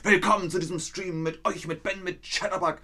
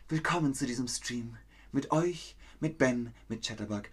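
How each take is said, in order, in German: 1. Es klingt wütend, feindselig. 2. Es klingt zärtlich, verliebt. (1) "ich rede meinen Text, aber böse" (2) "Machen Sie es mal verliebt"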